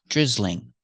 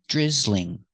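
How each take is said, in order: First: The word is said with two syllables. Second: The same.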